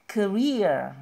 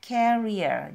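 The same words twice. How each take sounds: First: "career" slow, with REER stressed and a rising tune; career second syllable stress. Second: "carrier" said KER-ier with the first syllable stressed. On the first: Teacher warning learners not to say carrier. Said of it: "penekanan ada di suku kata kedua". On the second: Teacher contrasting carrier with career. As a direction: lean on the front of "carrier". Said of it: "diucapkannya bukan". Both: Shown as a demonstration.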